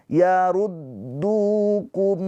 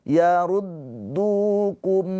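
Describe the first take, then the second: No difference in how they are said.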